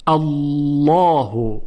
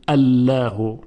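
First: "الله" very slow, with a heavy, dark double l; big, full-bodied lam in "الله"; thick lam. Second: "الله" said wrongly light, as "Allaehu"; thin lam. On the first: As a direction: stretch "الله" as a rounded "Allawhu". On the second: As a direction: give "الله" a clear l and front vowel. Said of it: "یعنی نمیگوییم الله". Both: Shown as a demonstration.

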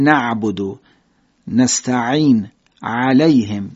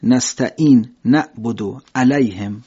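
First: Slow, with the throat tightened on each ع; ع of نستعین pressed from the throat; Arabic throat consonants. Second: Slow, ع softened to a glottal stop in نستعین; نعبد said with a plain catch, no throat squeeze; ع of علیهم as a light hamza; Persian-style hamza. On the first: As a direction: squeeze the throat on نعبد و نستعین. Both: Shown as a demonstration.

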